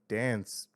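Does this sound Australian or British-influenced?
Australian. It is said in a typical Australian accent. "which is like very Aussie"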